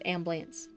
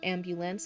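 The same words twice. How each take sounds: First: The word is said with two syllables. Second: The word is said with three syllables. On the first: "it sounds like um two syllables" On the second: "instead of three"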